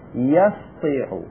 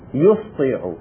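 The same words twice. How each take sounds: First: The first syllable has the vowel a. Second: The first syllable has the vowel u. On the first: The past form has six letters. "بفتح الياء" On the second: The past form has four letters. "بالضم يعني بضم الياء"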